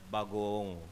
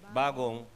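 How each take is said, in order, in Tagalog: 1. Hinahaba ang patinig sa salita. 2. Maikli ang patinig sa salita. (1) "Pero pag hinabaan mo ng konti, luma na yan" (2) "pag ang bagong, ganun mo sinabi"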